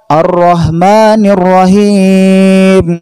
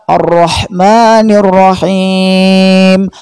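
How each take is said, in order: First: The h sounds are plain, light breathy h. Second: The h sounds are raspy, from the throat. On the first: The speaker calls it wrong. "Ha dibaca ha" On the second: The speaker calls it right. "Yang benar adalah"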